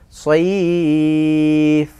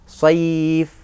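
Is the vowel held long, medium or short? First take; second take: long; short. First: The vowel is held for three beats. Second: The vowel is held for one beat. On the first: "atau tiga alif" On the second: "Boleh satu"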